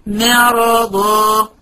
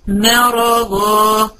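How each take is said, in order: First: The opening m sound is light and thin. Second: The opening m sound is light and thin.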